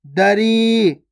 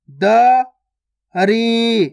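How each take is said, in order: First: दरी joined, long final ee; joined, stretched word. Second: दरी split as da, pause, ree; syllable by syllable. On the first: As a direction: blend दरी and hold the ee. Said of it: "खींच के पढ़ना है". (दरी मिलाकर, ई खींचकर) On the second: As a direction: slowly sound out दरी with a gap inside. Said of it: "direct मात्रा का उच्चारण करके पढ़ेंगे". (दरी को तोड़कर, द... री) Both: Shown as a demonstration.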